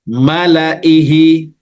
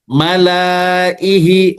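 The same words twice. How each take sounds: First: The vowel after the l is kept short. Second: The vowel after the l is drawn out long. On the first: "Maknanya lam itu tidak dipanjangkan" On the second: "Kalau dipanjangkan"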